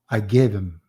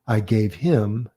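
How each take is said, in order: First: The words are run together with reduced him. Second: Each word is pronounced fully and separately. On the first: "connected speech version" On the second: "Instead of I gave him"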